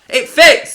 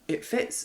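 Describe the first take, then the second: First: It is said loudly and excitedly. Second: It is said quietly and flatly.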